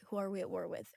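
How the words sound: It is spoken in an American accent. "if I'm trying to do my American, I'll be like"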